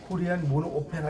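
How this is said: Opera is said with Korean-style vowels, like oh-peh-ra. The speaker calls it wrong. "이러면 완전 콩글리시고요"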